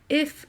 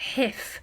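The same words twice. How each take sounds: First: The word starts cleanly without a burst of air. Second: The word starts with a breathy burst of air. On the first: The speaker calls it right. "You want a nice continuous breath" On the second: The speaker calls it wrong. "If you're doing a hiff, it means that the air is coming out at speed"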